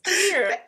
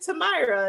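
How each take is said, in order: First: The middle vowel sounds like 'ee'. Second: The middle vowel sounds like 'eye'. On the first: The speaker calls it right. "It's Tamira" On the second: The speaker calls it wrong. "I've been saying long eye"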